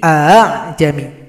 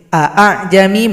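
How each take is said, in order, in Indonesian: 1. Vokalnya pendek; hamzah yang kedua samar. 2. Kedua hamzah itu dibaca dengan jelas dan tegas.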